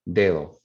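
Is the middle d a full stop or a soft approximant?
soft approximant. The middle d is soft, tongue not touching.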